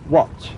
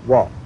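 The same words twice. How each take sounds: First: It is said in a standard English accent. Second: It is said in a Cockney accent.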